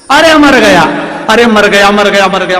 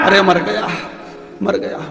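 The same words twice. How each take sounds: First: Loud, high cry of pain, fading toward the end; husband yelling in pain. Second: Said in the usual way. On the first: Acted. Husband struck with a stick at midnight, yelling in pain. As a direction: howl like you've just been clubbed in the dark. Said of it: "पति चिल्लाए".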